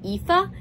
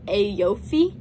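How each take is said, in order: First: The name is said with its Irish sound. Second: The name is sounded out from its spelling. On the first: The speaker calls it right. "apparently it's actually pronounced like Aoife" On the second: The speaker calls it wrong. "which I would have pronounced like Aoife, which I knew was wrong"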